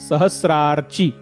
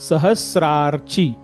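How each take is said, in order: No difference in how they are said.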